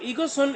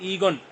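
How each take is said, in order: First: It is said in full, with two syllables. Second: It is said contracted into one short syllable. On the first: "कहता है इसको ईगो सुन" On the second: "short form में क्या पढ़ सकते हैं"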